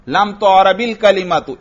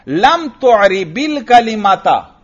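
First: The final word ends with a 'u' vowel. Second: The final word ends with an 'a' vowel. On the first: The word was not given case endings. "इसको फेले मजहूल पढ़ो" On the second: You did not give the word case endings. "फेले मारूफ पढ़ो"

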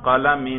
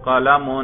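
First: The word ends in -in. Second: The word ends in -un. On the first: "جر پہ ذرا کریں" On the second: "اس کے رفع پر ہم تلفظ کر رہے ہیں"

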